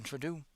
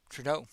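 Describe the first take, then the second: First: Trudeau ending in "doo"; mispronounced Trudeau. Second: Trudeau ending in "doh"; corrected Trudeau. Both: Real, not acted.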